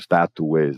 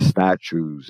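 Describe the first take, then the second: First: The second t sounds like a plain 't'. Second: The second t sounds like 'ch'. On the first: The speaker calls it wrong. "não statues" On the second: The speaker calls it right. "o segundo tem um som do T, que é um, um som mais comum para o C H"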